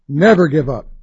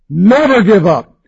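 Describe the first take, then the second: First: The voice is pitched at its lowest. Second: The voice is pitched somewhat higher. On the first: "voice going up a little bit each time" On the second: "voice going up a little bit each time"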